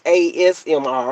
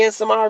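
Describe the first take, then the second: First: The term starts with the letter A. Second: The term starts with the letter S. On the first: The speaker calls it right. "it's A S M R" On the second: The speaker calls it wrong. "you don't even be saying it right"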